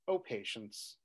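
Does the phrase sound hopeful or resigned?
hopeful. It is said with hope, not giving up. The speaker still holds out hope. "the first O patience is"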